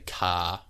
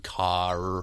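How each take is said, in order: First: The word ends without an R sound. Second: The word ends with an R sound. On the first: "the New Zealand accent is non-rhotic, meaning we say car" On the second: "rather than car"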